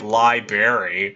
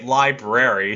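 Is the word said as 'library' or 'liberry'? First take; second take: liberry; library. First: It is said with a 'berry' sound in the middle. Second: It is said with the standard 'brar' middle. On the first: "She would say library" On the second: "She wouldn't say library"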